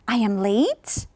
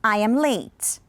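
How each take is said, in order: First: The voice rises at the end, sounding unsure. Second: The voice falls at the end, sounding certain. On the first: The speaker is not sure it is true. "That was when I wasn't sure" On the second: The speaker is sure it is true. "Now we are going to be certain"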